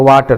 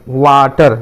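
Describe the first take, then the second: First: Said in the usual way. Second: water stretched into two beats, वा and टर; split into syllables. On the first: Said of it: "तो ये दो syllable हो गया". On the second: Shown as a demonstration. Teacher showing students that water has two syllables, stretched apart. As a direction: draw out वा, then land टर. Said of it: "इसमें एक से ज़्यादा सिलेबल है".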